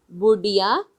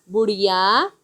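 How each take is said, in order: First: "बुढ़िया" with a stopped ढ; hard ढ. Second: "बुढ़िया" with a flap and rising end; flapped ढ़. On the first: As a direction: stop the tongue firmly in "बुढ़िया", no flap. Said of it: "ढ ढक्कन की तरह उच्चारण करेंगे". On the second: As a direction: flick the tongue in "बुढ़िया", no hard stop. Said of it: "इसमें अंतर क्या है". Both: Shown as a demonstration.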